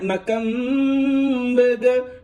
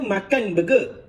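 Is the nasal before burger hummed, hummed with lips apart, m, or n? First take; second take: hummed; n. First: The m is held as a two-beat nasal hum. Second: The word ends in a plain n sound. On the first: "makam burger tu dengung dua rakaat" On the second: "Asalnya makan burger"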